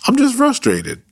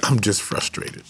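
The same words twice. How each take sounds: First: Much higher, playful and light; high-pitched playful declaration; playful squeak. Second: Said in the usual way. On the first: Shown as a demonstration. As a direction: squeak it out with a grin. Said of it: "Let's declare". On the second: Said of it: "I'm not hopeless".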